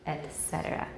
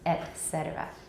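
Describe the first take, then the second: First: The first word ends in a t sound. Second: The first word ends in a t sound.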